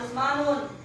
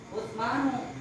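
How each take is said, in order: First: The name ends with an added n sound. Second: The name ends on a vowel, without n. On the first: The speaker calls it wrong. "Jangan Utsmanun" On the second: The speaker calls it right. "tapi Utsmanu"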